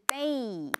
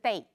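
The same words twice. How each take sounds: First: The vowel glides over two beats. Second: The vowel is short and flat, one beat. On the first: The speaker calls it right. "是 day，两拍" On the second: The speaker calls it wrong. "不是 day"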